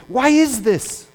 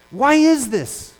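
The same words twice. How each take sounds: First: Said in the usual way. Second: "Why is this?" repeated slowly, each word weighed; slowed, emphatic repeat. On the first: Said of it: "and we don't become angry?". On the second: Real, not acted. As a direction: drag the repeat out to drive it home.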